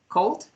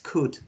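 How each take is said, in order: First: The L sound is pronounced in the word. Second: The L sound is silent in the word. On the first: The speaker calls it wrong. "you tell me cold, cold" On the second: The speaker calls it right. "the correct pronunciation is could, okay? The else doesn't sound here"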